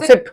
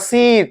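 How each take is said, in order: First: The vowel is short and light. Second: The vowel is long, like seat. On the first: The speaker calls it right. "एकदम हल्का सा सिट" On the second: The speaker calls it wrong. "इसको कभी मत पढ़ना सीट"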